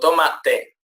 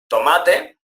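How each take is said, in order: First: The stress is on the first syllable. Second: The stress is on the second syllable.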